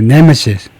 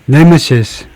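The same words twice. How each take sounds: First: The stress is on the first syllable. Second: The stress is not on the first syllable. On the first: The speaker calls it right. "이 nemesis 앞에다 액센트를 줘야 됩니다" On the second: The speaker calls it wrong. "nemesis가 아니고"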